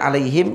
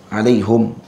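First: The h takes i and the m is closed. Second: The h takes u and the m is closed. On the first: "yang kita sedia baca ni" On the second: "dengan dhammahkan ha dan sukunkan mim"

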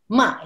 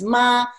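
First: The syllable is said with Mandarin tone four. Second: The syllable is said with Mandarin tone one. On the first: "ma is tone four" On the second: "tone one is ma"

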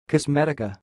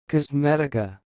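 First: It is said at normal speed. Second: It is said more slowly.

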